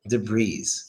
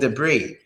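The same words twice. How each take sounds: First: The word ends with an audible S sound. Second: The word ends without an S sound. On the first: The speaker calls it wrong. "so many Americans say debris" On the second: The speaker calls it right. "Just take away the S. It's only debris"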